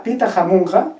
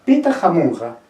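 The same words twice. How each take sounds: First: "pita jamunja" with the pitch rising at the end, like a written question; question tune. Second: "pita jamunja" said flat with a falling end, like a plain statement; statement tune. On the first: Teacher contrasting the same quechua phrase for students, rising question tune. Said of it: "o diga". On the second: Teacher showing students the quechua question without question marks, falling tune. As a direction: read "pita jamunja" as a calm statement with the pitch dropping at the end. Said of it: "cuando yo diga". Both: Shown as a demonstration.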